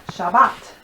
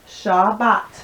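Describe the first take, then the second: The two takes are said the same way.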